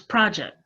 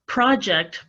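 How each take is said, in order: First: The final t sound is dropped. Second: The final t sound is pronounced.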